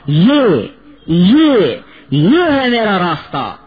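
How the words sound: It is said proudly, with a lift in voice. The speaker takes pride in what is theirs. The speaker calls it right. "جس میں کہتا وہ کہو"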